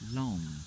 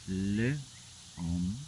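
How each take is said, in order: First: The article and the noun are blended together. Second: The article and the noun are said separately.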